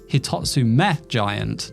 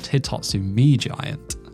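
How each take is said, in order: First: The last syllable before Giant sounds like 'meh'. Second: The last syllable before Giant sounds like 'mee'. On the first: The speaker calls it right. "the name should be pronounced Hitatsume Giant" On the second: The speaker calls it wrong. "not Hitatsumi Giant"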